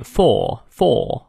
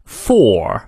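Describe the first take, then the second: First: British "for" with silent R, like "faw"; non-rhotic British "for"; British pronunciation. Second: "for" with the final R clearly sounded; American "for", rhotic ending. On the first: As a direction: drop the R from for, long open vowel. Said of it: "英国人就会念for". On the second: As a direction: curl a firm R at the end of for. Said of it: "元音后的R不念". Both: Shown as a demonstration.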